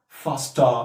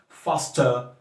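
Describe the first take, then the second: No difference in how they are said.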